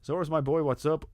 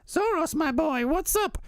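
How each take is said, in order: First: It is said in the speaker's normal voice. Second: It is said in a put-on character voice.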